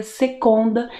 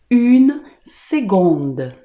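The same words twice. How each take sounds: First: "seconda" with the C said as K; wrong hard K. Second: "une seconde" slowly, C said as G; correct G sound. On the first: Teacher warning students of a mistake, "seconda" said with a K sound. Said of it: "você nunca pronuncia seconda". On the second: Teacher correcting students' French, "seconde" said slowly with a G sound. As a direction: model "seconde" with a clear G in place of C. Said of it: "você sempre vai pronunciar". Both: Shown as a demonstration.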